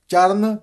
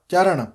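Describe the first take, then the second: First: ਚਰਨ ending in dental n, "charan"; plain n. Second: ਚਰਨ ending in retroflex ṇ, "charaṇ". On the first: Teacher showing the mistake, ਚਰਨ with a dental n. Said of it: "ਨੰਨਾ ਨਹੀਂ ਉਚਾਰਨ ਕਰਨਾ". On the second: Teacher modelling ਚਰਨ with a retroflex n. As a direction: curl the tongue back for the last n of ਚਰਨ. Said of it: "ਅੜਾਣਾ ਹੈ". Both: Shown as a demonstration.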